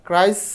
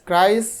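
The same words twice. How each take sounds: The two takes are said the same way.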